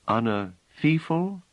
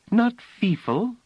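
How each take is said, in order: First: "feefle" said slowly, doubtful with a rising end; doubtful repetition. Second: "feefle" said very high and slow in Phelim's own sounds; correct native word. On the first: Acted. Bliss doubtfully repeating Phelim's word, questioning. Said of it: "repeated the word doubtfully". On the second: Shown as a demonstration. Phelim laughing correction of Bliss, very high. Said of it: "Bliss could hear the difference".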